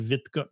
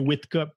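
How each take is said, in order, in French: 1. Le nom commence par un son V. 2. Le nom commence par un son W. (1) "Si ça serait en Belgique, il serait Vitcup" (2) "comme il est en Angleterre, fait que c'est Whitcup"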